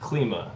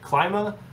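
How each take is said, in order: First: The first syllable sounds unlike the start of 'climate'. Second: The first syllable sounds like the start of 'climate'.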